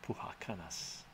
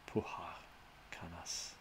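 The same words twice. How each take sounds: First: Said in the usual way. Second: "Puha Kanas" in two separate parts; sounding out name. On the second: Shown as a demonstration. Streamer trying a viewer's name, "Puha Kanas" piece by piece. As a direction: split "Puha Kanas" with a pause, trailing softer. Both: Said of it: "I'm gonna try to".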